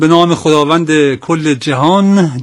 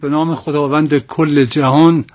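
First: It is said in an Araqi accent. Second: It is said in a standard accent.

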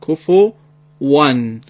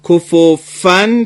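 First: The middle consonant uses rounded lips, no teeth. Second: The middle consonant uses teeth on the lower lip. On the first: The speaker calls it right. "در زبان عربی حرف واو اینجوری تلفظ میشه، لبها جمع و باز میشه" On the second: The speaker calls it wrong. "کفوفن پس غلطه، نباید دندونها با لب پایین تماسش قطع نشه"

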